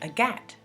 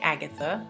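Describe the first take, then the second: First: The name is pronounced the French way. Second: The name is pronounced the English way. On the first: The speaker calls it right. "They say Agathe" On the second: The speaker calls it wrong. "they don't say Agatha"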